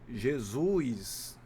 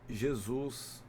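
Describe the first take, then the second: First: An extra i glide comes before the final s. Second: No extra glide comes before the final s. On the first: The speaker calls it wrong. "acrescenta um i nas palavras" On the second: The speaker calls it right. "em vez de"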